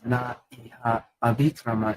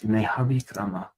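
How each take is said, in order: First: The words are kept as separate vowel-initial words. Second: The words merge into one continuous word. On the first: "it says na iha avikrama in the word for word" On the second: "but it's nehavikrama"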